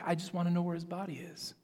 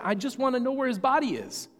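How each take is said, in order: First: Said in the usual way. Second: Casual, as if nothing strange happened, higher; matter-of-fact. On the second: Retold or imitated. Mary unfazed by angels, answering them casually. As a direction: toss it off like an everyday question. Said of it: "acts like it's perfectly normal".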